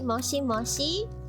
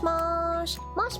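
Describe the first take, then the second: First: Both final i vowels are clearly pronounced. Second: Both final i vowels are dropped. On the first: The speaker calls it wrong. "it's not said as moshi moshi" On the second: The speaker calls it right. "the pronunciation is just mosh mosh"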